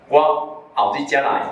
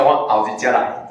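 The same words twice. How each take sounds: First: 我后日才来 drawn out, 后日 in its "several days later" tones; slow, careful demo of 后日 meaning a later day. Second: 我后日才来 with 后日 louder, meaning the very near day; 后日 as "coming day". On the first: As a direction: say 后日 slowly, as the word meaning some days later. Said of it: "后日就是几工以后". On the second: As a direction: say 后日 in its tones for the near day to come. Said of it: "明仔载叫后日". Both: Shown as a demonstration.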